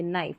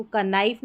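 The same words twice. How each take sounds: First: नाइफ starting on N, said low and soft; silent K. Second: का नाइफ with an extra "ka" before the N; K sounded. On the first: Teacher giving the reading of knife, नाइफ with silent K. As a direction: drop the K and begin नाइफ on N. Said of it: "के का उच्चारण नहीं होता है". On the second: Teacher warning against a misreading, का नाइफ with K sounded. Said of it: "इसको का नाइफ नहीं पढ़ेंगे". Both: Shown as a demonstration.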